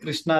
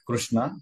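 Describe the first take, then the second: First: The word is said in an everyday colloquial way. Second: The word is said in careful Sanskrit form. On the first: "మనం ఏంటంటే కృష్ణ అని కూడా అంటాం" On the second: "ఉత్తమమైనది కృ- కృష్ణ"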